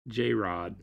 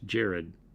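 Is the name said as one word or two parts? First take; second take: two parts; one word. First: The name is split into two parts, J-Rod. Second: The name is said as one ordinary word. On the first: The speaker calls it wrong. "Didn't Chris mispronounce Jared?" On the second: The speaker calls it right. "that's Jared"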